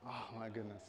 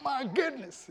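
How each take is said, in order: First: Low, very soft exclamation; hushed, muted take; understated exclamation. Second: High-pitched demo of excitement; high, acted amazement; excited exclamation. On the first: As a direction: say it softly and low, with little excitement. Trying out a suggested exclamation. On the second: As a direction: exclaim it as if thrilled. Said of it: "an exclamation for excitement". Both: Shown as a demonstration.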